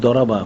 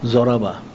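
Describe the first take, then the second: First: The first consonant is a D-like sound. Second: The first consonant is a Z-like sound. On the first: This is the pronunciation with the letter dwad. "দোয়াত উচ্চারণ" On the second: This is how madrasa students commonly say it. "দোয়াত উচ্চারণ কিন্তু তারা জরাবাই কয়"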